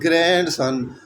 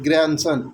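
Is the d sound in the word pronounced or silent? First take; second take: pronounced; silent. First: The d sound is clearly pronounced. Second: The d sound is silent. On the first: The speaker calls it wrong. "Not" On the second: The speaker calls it right. "यहाँ पर भी जो डी है वो silent होता है"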